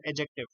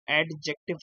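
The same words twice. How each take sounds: First: एडजेक्टिव said "ajective", no D heard; silent D. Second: एडजेक्टिव with the D wrongly sounded, "ad-jective"; mispronounced adjective. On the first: Teacher modelling the correct word for students, एडजेक्टिव with silent D. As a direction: drop the D in एडजेक्टिव, go straight to the J. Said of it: "डी silent है". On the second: Teacher showing students the common mistake, एडजेक्टिव with an audible D. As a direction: say एडजेक्टिव with a distinct D before the J. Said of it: "यहाँ पे डी silent है". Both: Shown as a demonstration.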